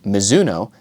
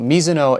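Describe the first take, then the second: First: The name is said with American pronunciation. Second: The name is said with Japanese pronunciation. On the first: "the Americanized name of the brand" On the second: "the Japanese pronunciation"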